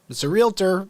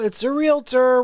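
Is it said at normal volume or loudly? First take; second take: normal volume; loudly. First: It is said at normal volume. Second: It is yelled loudly.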